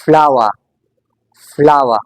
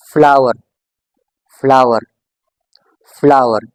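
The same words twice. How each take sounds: First: फ्लावर with an open "ah" ending; British silent R. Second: फ्लावर with the final R clearly sounded; American strong R. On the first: Teacher repeating the British model, silent R. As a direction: say फ्लावर without its final R. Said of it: "You have to keep this R silent". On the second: Teacher switching to American English, strong R. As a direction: end फ्लावर on a firm R. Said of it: "इस आर को आपने strongly pronounce करना है". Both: Shown as a demonstration.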